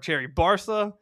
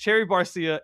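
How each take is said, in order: First: The second word is said as two syllables, Barca. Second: The second word is said as three syllables, Barcia. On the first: The speaker calls it wrong. "I kept pronouncing it Cherry Barca" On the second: The speaker calls it right. "it's Cherry Barcia"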